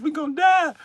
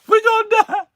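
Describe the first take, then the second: First: High, louder panicked cry. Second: Very high, much louder scream; screaming panic. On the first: Passenger on the bumpy flight, high panicked cry. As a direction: yelp in mock panic. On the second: Passenger sure of the crash, very high screaming. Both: Retold or imitated.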